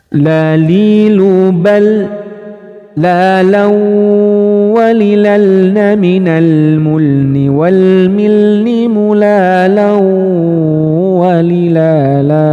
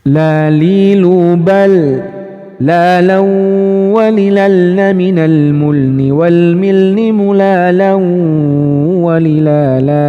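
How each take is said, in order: First: It is recited at a moderate speed. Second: It is recited at a fast speed. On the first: "Ini menggunakan kecepatan yang standar" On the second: "Satu level di atasnya lagi speednya"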